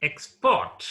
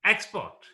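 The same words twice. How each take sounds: First: Export as ex-PORT, verb form; second-syllable stress. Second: Export as EX-port, noun form; first-syllable stress. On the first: Teacher modelling the verb export, second syllable stressed. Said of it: "It's verb". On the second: Teacher modelling the noun Export, stress up front. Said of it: "Export is noun". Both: Shown as a demonstration.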